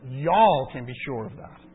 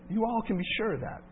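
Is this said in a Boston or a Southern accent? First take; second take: Southern; Boston. First: It is said in a Southern accent. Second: It is said in a Boston accent. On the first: The speaker calls it right. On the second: The speaker calls it wrong.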